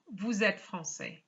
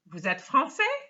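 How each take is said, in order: First: The voice falls at the end. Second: The voice rises at the end. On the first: It states that the listener is French. "we have a statement here" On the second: It asks whether the listener is French. "way number one"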